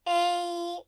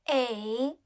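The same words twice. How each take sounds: First: The pitch stays high and level. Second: The pitch dips low then rises.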